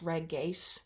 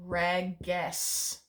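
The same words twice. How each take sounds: First: Reges with a long final e, "reg-GACE". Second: Reges as "reg-GESS", the last vowel short; short final e. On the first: Teacher correcting herself from memory, reges said with long "ay". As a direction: lengthen the last vowel of reges to "ay". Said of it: "this is a long E, it's reges". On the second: Teacher gives the plural form, reges said "reg-GESS". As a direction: say reges slowly in two parts, ending in "ess". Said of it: "this is a long E". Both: Shown as a demonstration.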